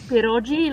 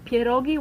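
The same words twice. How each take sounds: First: It is pronounced with an Italian-style pronunciation. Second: It is pronounced with a Polish pronunciation. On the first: The speaker calls it wrong. "Not pierogi, like they say in Italy" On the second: The speaker calls it right. "but we call pierogi"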